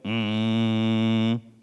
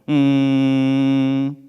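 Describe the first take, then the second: First: The hum is pushed downward, placed low. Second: The hum is pushed upward, placed high. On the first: "밑으로 갑니다" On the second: "위로 한번 가볼까요?"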